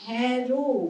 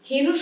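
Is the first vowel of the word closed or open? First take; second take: open; closed. First: The first vowel is open, like 'a' in cat. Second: The first vowel is closed, like 'e' in bed. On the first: It means 'look', from the root meaning to see. The speaker calls it right. "আমি কি বললাম হ্যারো" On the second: It means 'one who has lost'. The speaker calls it wrong. "হেরো নয়"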